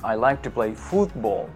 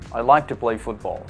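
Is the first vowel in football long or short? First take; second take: long; short. First: The first vowel of football is long. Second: The first vowel of football is short. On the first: The speaker calls it wrong. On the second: The speaker calls it right.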